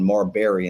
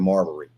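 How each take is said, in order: First: The name is said with a Southern drawl. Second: The name is said plainly, without the drawl. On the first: The speaker calls it wrong. "that's just my southern drawl" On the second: The speaker calls it right. "I've corrected it now"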